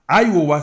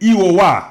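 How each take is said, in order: First: It is pronounced the English way. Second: It is pronounced the French way.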